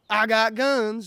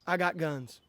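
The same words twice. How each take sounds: First: Louder and higher, punching guns; emphatic repeat. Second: Said in the usual way. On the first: Acted. To critics online, a loud emphatic repeat. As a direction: slam the line home a second time.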